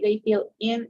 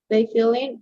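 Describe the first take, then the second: First: The words are said separately, not linked. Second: The words are linked smoothly together. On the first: The speaker calls it wrong. "if we say they feel in, it sounds a little bit weird" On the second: The speaker calls it right. "So we say together"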